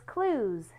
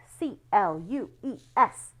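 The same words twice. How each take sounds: First: Said in the usual way. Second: Spelling the word clues aloud, letter by letter; spelled out letter by letter. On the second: Shown as a demonstration. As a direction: spell clues out for the kids, one letter at a time. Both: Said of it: "It says clues".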